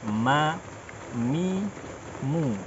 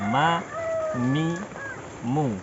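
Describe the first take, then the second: The two takes are said the same way.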